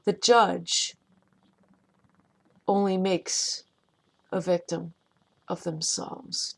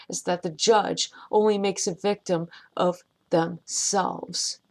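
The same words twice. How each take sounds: First: "The judge", "only makes", "a victim", "of themselves" split by long pauses; slow deliberate repeat. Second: Said in the usual way. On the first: Shown as a demonstration. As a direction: spell it out in pieces for emphasis. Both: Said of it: "Let me say it again".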